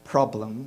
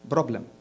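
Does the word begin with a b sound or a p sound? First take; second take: p sound; b sound. First: The word begins with a p sound. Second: The word begins with a b sound. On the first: This is the usual English way. "we don't say problem" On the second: This is how Egyptians say it. "we say problem. We have a big problem with our P's and our B's"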